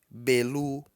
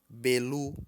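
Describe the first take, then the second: No difference in how they are said.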